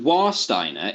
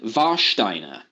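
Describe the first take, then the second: First: It is said with a simplified English pronunciation. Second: It is said with a precise foreign pronunciation.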